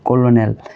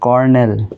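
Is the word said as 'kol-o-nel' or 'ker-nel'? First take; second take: kol-o-nel; ker-nel. First: It is read out as kol-o-nel, letter by letter. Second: It is said as ker-nel, with two syllables.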